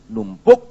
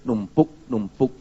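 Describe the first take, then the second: First: Sudden loud. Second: Slow piling up. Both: Shown as a demonstration. Anger piling up.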